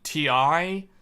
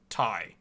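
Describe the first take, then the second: First: It is said as two separate spelled letters. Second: It is said as one syllable, like tie. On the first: The speaker calls it wrong. "everybody called it T I" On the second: The speaker calls it right. "the correct pronunciation is Ty"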